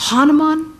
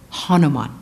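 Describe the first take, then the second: First: Higher and louder, proclaimed; exultant naming. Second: Said in the usual way. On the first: Acted. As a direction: ring the name out with awe. Proclaims hero's name.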